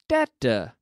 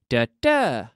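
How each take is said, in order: First: The stress falls on the first syllable. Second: The stress falls on the second syllable. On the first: It is a multiple of ten like sixty. "multiples of 10, then the stress falls on the first syllable" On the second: It is a teen number like sixteen. "The intonation of 16 and 60. ... when I'm talking about teens, the stress falls on the second syllable"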